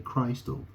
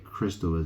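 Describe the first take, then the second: First: The first syllable sounds like the word 'Christ'. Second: The first syllable has a short vowel, like 'kiss'. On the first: "you could say Christal" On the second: "you could say crystal"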